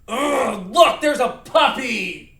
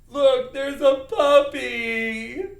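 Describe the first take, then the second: First: It is said in an angry voice. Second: It is said in a sad voice.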